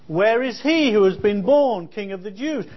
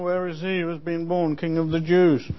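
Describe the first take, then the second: First: The question is spoken loudly and projected. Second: The question is spoken quietly and weakly. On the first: The speaker calls it right. "You have to raise your voice and project" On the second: The speaker calls it wrong. "could you speak up please"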